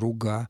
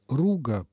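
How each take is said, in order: First: The stress is on the last syllable. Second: The stress is on the first syllable. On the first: "с ударением на последнем слове" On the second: "но я произношу его как"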